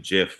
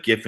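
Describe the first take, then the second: First: "gif" said as jif; soft-G "gif". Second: "gif" with a hard G, as in gift. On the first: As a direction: say "gif" starting like a J. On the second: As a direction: say "gif" starting like go. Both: Shown as a demonstration. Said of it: "People use both the same too".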